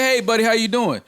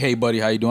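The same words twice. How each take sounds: First: It sounds warm and friendly. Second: It sounds cold and threatening.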